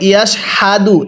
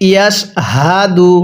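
First: ইয়াশ হাদু with a plain হ, no throat sound; wrong reading. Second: ইয়াশ হাদু slow, with a light throat sound on হা; correct pronunciation. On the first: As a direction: show the common mistake: হাদু with an ordinary হ. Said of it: "পড়াটা সহি শুদ্ধ হবে না". (ভুল উচ্চারণে ইয়াশ হাদু) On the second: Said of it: "গলার মধ্যে হালকা আওয়াজ করব". (গলায় হালকা আওয়াজ করে ধীরে ইয়াশ হাদু) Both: Shown as a demonstration.

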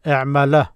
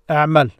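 First: اعمل with an "a" sounded after the l; اعمل ending in "-la", not a bare l; final a movement. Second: اعمل ending on a bare l, no vowel after it; اعمل with its last letter left silent. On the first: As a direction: open the end of اعمل into a short "a". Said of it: "had to take this movement". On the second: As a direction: say اعمل and stop on the final consonant. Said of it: "no movement". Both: Shown as a demonstration.

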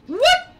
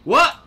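First: Very high, loud "What?"; incredulous squeak. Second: Sharp, loud, high "What?"; a short startled yelp of a question. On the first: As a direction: squeak the question out in disbelief. Repeats it, even more startled. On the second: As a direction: blurt it out in disbelief. Startled by something in game. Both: Real, not acted.

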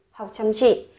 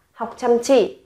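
No difference in how they are said.

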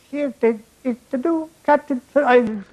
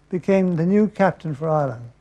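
First: "new captain for Ireland" in a higher Irish brogue; the "new captain for Ireland" in a lilting Irish voice; Irish accent. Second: Said in the usual way. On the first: Retold or imitated. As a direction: announce the "new captain for Ireland" like a jolly Irish team-mate. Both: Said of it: "repeated in Irish voice".

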